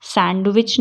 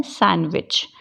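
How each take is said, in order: First: सैंडविच with a clear d; सैंडविच, d heard before w; sounded D. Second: सैंडविच as san-wich; सैंडविच, d dropped; silent D. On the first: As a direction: say सैंडविच as sand-wich. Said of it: "सैंडविच नहीं बोलते". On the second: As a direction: say सैंडविच with n straight into w. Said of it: "क्या बोलते हैं?". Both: Shown as a demonstration.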